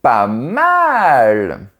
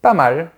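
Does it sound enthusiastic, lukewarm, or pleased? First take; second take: enthusiastic; lukewarm. First: It sounds enthusiastic and strongly impressed. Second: It sounds lukewarm and only mildly approving. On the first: It is great. "je pense que c'est super" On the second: It is okay but could be better. "ça veut dire « il y a mieux, mais ça va »"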